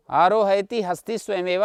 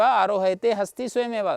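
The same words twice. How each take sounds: First: "आरोहयति" with the final syllable said -ti; -ति ending shown. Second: "आरोहयते" with the final syllable said -te; -ते ending shown. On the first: Teacher reciting the first of two forms, "आरोहयति" with final -ति. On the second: Teacher reciting the second of two forms, "आरोहयते" with final -ते. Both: Shown as a demonstration. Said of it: "दो पाते थे".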